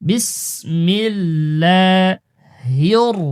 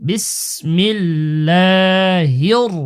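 The two takes are said the same way.

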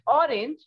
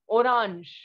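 First: It is pronounced with English sounds. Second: It is pronounced with French sounds. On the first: "In English, we say it orange" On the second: "but in French, it is orange"

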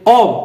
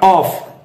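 First: The word ends with a v sound. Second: The word ends with an f sound. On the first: The speaker calls it right. "It is of" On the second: The speaker calls it wrong. "not off"

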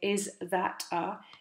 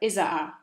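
First: Each word is said clearly and in full. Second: The words are squashed together and reduced. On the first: "instead of saying" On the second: "it sounds like"

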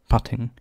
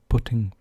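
First: The word rhymes with shutting. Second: The word does not rhyme with shutting.

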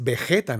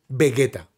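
First: The G sounds like a raspy throat sound. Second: The G sounds hard, as in go. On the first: This is how Spanish spelling rules say it should be read. "la G E sin U es Vegeta, ¿no? Como Gerardo" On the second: This is the name that was kept by a creative decision. "se le dejó Vegeta"

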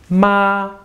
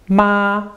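First: The pitch stays high and level. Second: The pitch stays high and level.

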